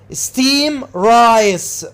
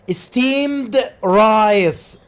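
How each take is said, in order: First: The D at the end of steamed is dropped. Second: The D at the end of steamed is heard.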